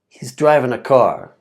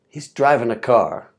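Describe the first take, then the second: First: He is is contracted to one syllable. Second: The same.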